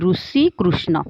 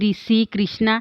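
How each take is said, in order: First: The r is followed by a 'u' sound. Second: The r is followed by an 'i' sound. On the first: "ଓଡ଼ିଆରେ ସେଇ ରୁ ପରି ହିଁ ଉଚ୍ଚାରଣ ହେବ" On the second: "ଅନ୍ୟ ସମଗୋଷ୍ଠୀ ଭାଷାରେ ସେଇ ରୁଟା ରି ପରି ଉଚ୍ଚାରଣ ହୋଇଥାଏ"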